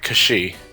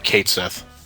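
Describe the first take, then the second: First: The name sounds like 'Kay-shee', with no th. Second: The name sounds like 'Kate Sith', spelled out. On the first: This is the original, proper pronunciation. "if I say his name the proper way" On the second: This is the pronunciation everyone recognizes. "I always pronounce it as Kate Sith"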